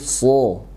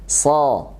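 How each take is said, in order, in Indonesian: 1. Bunyinya tebal, dengan posisi bibir biasa. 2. Bunyinya tipis, dengan bibir ditarik. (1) "tapi so, supaya menebalkannya" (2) "bukan ditarik ya"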